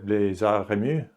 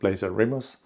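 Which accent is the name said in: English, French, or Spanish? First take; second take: French; English. First: The name is said with a French accent. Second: The name is said with an English accent. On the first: "It could be quite French as well" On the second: "in English it sounds like the Blazer Remus"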